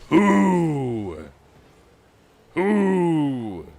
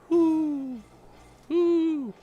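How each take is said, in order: First: It is said loudly and aggressively. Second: It is said softly and gently.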